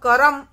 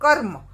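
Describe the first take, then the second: First: A full vowel follows the r sound. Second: No vowel follows the r sound. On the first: The speaker calls it wrong. "ऐसे उसका उच्चारण नहीं कर सकते" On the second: The speaker calls it right. "क फिर र की ध्वनि निकलती है और फिर म"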